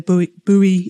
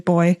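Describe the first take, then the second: First: The word is said as two syllables, boo-ee. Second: The word is said as one syllable, boy. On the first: This is not how Australians say it. "We don't say buoy in Australia" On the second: This is how Australians say it. "we say boy"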